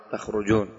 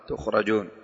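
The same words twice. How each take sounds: First: "تخرجون" pronounced takhrujun; fatha ta, damma ra. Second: "تخرجون" pronounced tukhrajun; damma ta, fatha ra. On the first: Teacher shows Hamza's reading, "تخرجون" as takhrujun. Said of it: "فتح التاء وضم الراء". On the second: Teacher shows the other readers' "تخرجون" as tukhrajun. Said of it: "بضم التاء وفتح الراء". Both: Shown as a demonstration.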